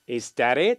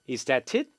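First: The t is a soft flap, like an L. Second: The t is a clear, hard t sound. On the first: "미국 발음 같은 경우는 t가 리을로 부드럽게 발음이 나요" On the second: "t 발음이 영국 발음일 땐 t긋으로 나요"

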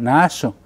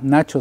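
First: The ch sound is said the local way. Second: The ch sound is said the usual way.

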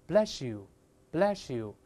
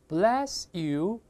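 First: The s and y merge into a sh sound. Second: The words are separate with a clear s sound.

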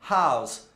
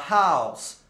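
The two takes are said the same way.

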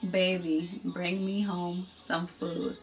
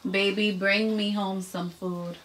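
First: It is said slowly. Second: It is said fast.

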